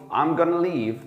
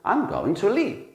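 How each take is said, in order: First: "Going to" is shortened to "gonna." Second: "Going to" is said as two full words.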